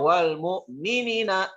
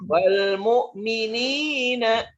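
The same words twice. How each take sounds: First: The vowel in 'ni' is cut short. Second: The vowel in 'ni' is drawn out long. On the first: The speaker calls it wrong. "Jangan dibaca" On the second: The speaker calls it right. "Nina dibaca panjang"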